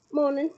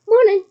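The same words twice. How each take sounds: First: Said in the usual way. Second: A cheery, much louder and higher good morning; bright greeting. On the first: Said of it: "said the muggle". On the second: A narrator's reading. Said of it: "said Mister Weasley brightly".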